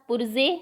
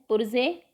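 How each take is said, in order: Both takes have the same delivery.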